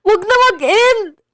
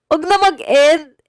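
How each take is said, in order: First: High, loud put-on voice on "Wag na mag-end"; high-pitched pleading voice; different voice. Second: Said in the usual way. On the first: Shown as a demonstration. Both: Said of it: "nakita niyo yung pag-iba-iba ko".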